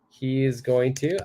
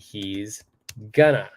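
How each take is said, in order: First: Every word is said fully and separately. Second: The words are contracted and joined together.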